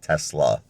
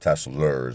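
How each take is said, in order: First: The word ends in a vowel, no R. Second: The word ends with an added R sound. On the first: The speaker calls it right. "I got to get that R out of there" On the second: The speaker calls it wrong. "I always say it wrong. I, I call it Teslers"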